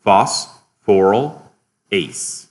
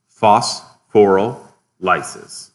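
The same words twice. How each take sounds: First: Phosphorylase very slowly as "phos... phoryl... ase"; split into parts. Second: Phosphorylases very slowly as "phos... phoryl... lysis"; split into parts. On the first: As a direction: break phosphorylase into three separate chunks. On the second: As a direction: break phosphorylases into three chunks, ending "LIE-sis". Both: Shown as a demonstration. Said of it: "You can actually split this up".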